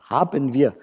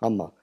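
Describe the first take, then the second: First: Both words are pronounced fully and separately. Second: The words merge into one contracted form. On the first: "wenn wir richtig sprechen" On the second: "dass man das in Spontansprache teilweise auch als Hammer ausspricht"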